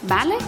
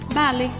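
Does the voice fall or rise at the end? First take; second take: rise; fall. First: The voice rises at the end like a question. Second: The voice falls at the end like a statement. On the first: It asks whether the other person agrees. "Pode ser usado para perguntar" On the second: It answers yes and agrees. "E para responder afirmativamente"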